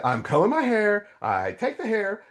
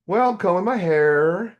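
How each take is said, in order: First: Sarcastic. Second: Higher, louder, mildly innocent retelling; innocent reply. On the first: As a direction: lay it on thick with sarcasm. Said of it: "I'm getting sarcastic". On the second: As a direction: play it matter-of-fact and innocent. Retold innocent reply to God. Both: Retold or imitated.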